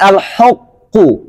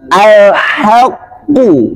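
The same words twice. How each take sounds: First: The h sound is thick and heavy. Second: The h sound is thin and light. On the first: The speaker calls it wrong. "Jangan al-haqqu" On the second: The speaker calls it right. "Berarti bacanya tipis ... Tapi al-haqqu"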